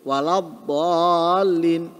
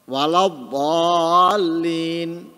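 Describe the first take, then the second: First: The d sound is heavy and emphatic. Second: The same.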